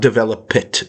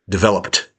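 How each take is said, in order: First: The word ends with an added 'it' syllable. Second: The word ends with a plain T sound. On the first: The speaker calls it wrong. "You're doing an it" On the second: The speaker calls it right.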